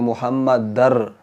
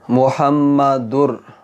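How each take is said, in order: First: The vowel before the final r is a. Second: The vowel before the final r is u. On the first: The speaker calls it wrong. "यहाँ ज़बर पड़ी जाती है" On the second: The speaker calls it right. "यहाँ देखें पेश है तनवीन"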